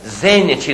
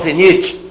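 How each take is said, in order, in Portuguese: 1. A tônica está na primeira sílaba. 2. A tônica está na segunda sílaba. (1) "palavra técnica... Zênite" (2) "não zenite"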